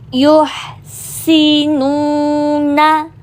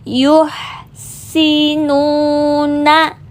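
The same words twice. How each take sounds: Both takes have the same delivery.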